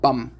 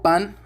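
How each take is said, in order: First: The word ends with an m sound. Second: The word ends with an n sound.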